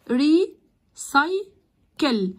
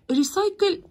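First: "ريسايكل" slowly broken as ree, sy, kel; long pauses between the three beats of "ريسايكل"; three split syllables. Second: Said in the usual way. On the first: Shown as a demonstration. ("ريسايكل" ببطء ري، ساي، كل) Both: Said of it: "تقسموا الكلمة لمقاطع".

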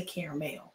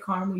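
First: Caramel as CARE-uh-mel; caramel in three syllables, CARE-uh-mel; CARE-uh-mel pronunciation. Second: Caramel as two-syllable CAR-mul; caramel shortened to CAR-mul; CAR-mul pronunciation. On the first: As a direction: say caramel with CARE first and a clear mel ending. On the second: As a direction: say caramel starting like car, middle syllable dropped. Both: Shown as a demonstration. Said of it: "I just say caramel, you say caramel".

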